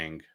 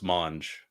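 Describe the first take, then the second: First: The name sounds like 'mang', rhyming with 'bang'. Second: The name sounds like 'monj', with an o. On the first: This is how they had always read the name. The speaker calls it wrong. "We always called him Cryptic Mang" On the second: This is the name's actual pronunciation. The speaker calls it right. "but no, it's Monge"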